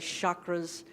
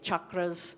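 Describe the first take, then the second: First: The word is said with a Western pronunciation. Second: The word is said with an Indian pronunciation.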